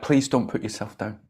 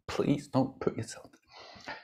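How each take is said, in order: First: Said in the usual way. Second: Slow, hushed begging; whispered plea. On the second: Acted. Buddhas pleading with you, slow whisper. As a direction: implore them in a soft whisper.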